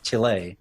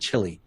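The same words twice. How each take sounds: First: The name is said with a local Chilean pronunciation. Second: The name is said with an American English pronunciation. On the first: This is the country's own name. "which I think is Chile" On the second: This is the Americanized name. "rather than Chile"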